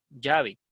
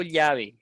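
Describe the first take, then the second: First: Llave with a hard "j" onset, "JA-ve"; students' ll pronunciation. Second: Llave with a palatal "ly", "LYA-ve"; a slow, careful llave, its ll as "ly"; own ll pronunciation. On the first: Teacher showing how some students say it, llave as "JA-ve". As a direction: say llave with ll merged into y, "DJA-ve". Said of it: "algunos de ustedes dirán llave". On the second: Teacher showing students her own way, llave said "LYA-ve". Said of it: "yo digo llave". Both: Shown as a demonstration.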